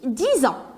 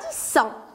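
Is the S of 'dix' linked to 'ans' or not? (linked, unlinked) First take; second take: linked; unlinked. First: The S is linked to the next word. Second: The S is not linked to the next word. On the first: The speaker calls it right. "on dit dix ans. Parce que ce S est entre deux voyelles" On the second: The speaker calls it wrong. "on ne dit pas dix ans"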